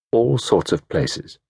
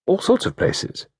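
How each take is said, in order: First: Said in the usual way. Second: Breathy, half-voiced whisper; whispered thought. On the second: A narrator's reading. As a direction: breathe it like a memory surfacing.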